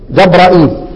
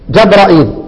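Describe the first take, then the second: Both takes have the same delivery.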